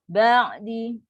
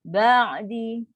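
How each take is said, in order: No difference in how they are said.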